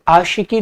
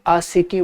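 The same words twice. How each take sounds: First: The middle consonant is a sh sound. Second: The middle consonant is an s sound. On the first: This is the standard pronunciation. "ये आशिकी नहीं" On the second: This is how eastern speakers say it. "तो ये स ही बोलते हैं"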